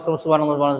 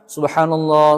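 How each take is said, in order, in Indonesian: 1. Diucapkan dengan cepat dan tergesa-gesa. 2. Diucapkan dengan pelan dan lafal yang jelas. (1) "Apa begitu zikir? Enggak" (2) "dengan lafaz yang jelas"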